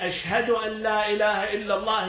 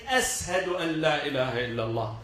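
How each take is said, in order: First: The first word has an 'sh' sound. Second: The first word has an 's' sound. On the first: "So to say" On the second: "instead of saying Sheen, he would say Seen"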